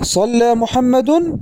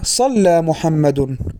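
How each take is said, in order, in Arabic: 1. لها تنغيم الجملة الاستفهامية. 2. لها تنغيم الجملة الخبرية. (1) "فإن التنغيم يشير إلى أن هذه الجملة استفهامية" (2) "فهمت أنها خبرية"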